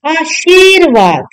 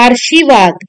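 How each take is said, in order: First: आशीर्वाद with r after a long shee; correct r placement. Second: आशीर्वाद with r before shi, "aarshivaad"; wrong r placement. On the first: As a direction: say आशीर्वाद slowly as "aa-sheer-vaad". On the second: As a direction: move the r forward in आशीर्वाद. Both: Shown as a demonstration. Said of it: "क्या लिखना है".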